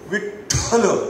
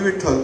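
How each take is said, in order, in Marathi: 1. ठ हा आवाज जोरदार श्वासासह म्हटला जातो. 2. ठ हा आवाज साधेपणाने आणि मृदूपणे म्हटला जातो. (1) "ठ हा जो उच्चार आहे ना त्याच्यामध्ये फोर्सफुल एक्सपिरेशन आहे" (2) "ते मला असं नाही"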